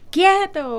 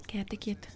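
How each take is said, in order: First: High, sharp mock shout at a child; imitated yell. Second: Put-on very quiet whispered command to a child; soft-spoken whisper. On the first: Showing how a mother would shout at her children, yelled. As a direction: demonstrate yelling an order, pitched well up. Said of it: "o gritarlo". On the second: Imitating Susana Wesley quietly telling her children off, whispered. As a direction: whisper the order instead of yelling it. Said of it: "hablar más pasito".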